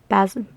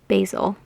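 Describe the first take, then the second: First: Basil is said in a non-American way. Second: Basil is said in an American way.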